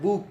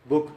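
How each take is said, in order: First: The vowel in the word is drawn long. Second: The vowel in the word is short. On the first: "B double ओ को जरा लंबा खींचते हैं" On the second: "हम लोग कहते हैं बुक"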